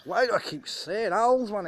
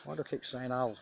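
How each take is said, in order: First: Exasperated outburst. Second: Said in the usual way. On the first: Real, not acted. Repeats question, then bursts.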